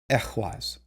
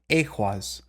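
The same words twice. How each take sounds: First: The first vowel is a short E sound. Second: The first vowel is not a short E. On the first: The speaker calls it right. "So it's going to be a short E again, as in like exit or entrance" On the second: The speaker calls it wrong.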